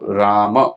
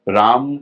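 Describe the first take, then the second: First: The word ends with a short vowel after m. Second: The word ends on the consonant m. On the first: "फिर कैसे है इसका विभाजन, र, आ, म, और अ।" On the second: "राम का जो विभाजन है वो कैसे होगा, र, आ, म।"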